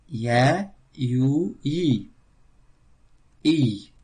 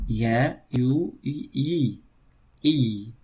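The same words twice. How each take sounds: Both takes have the same delivery.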